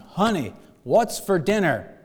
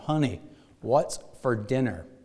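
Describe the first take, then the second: First: It is said in a loud voice. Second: It is said a little louder. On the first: "he said in a loud voice this time" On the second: "a little louder this time"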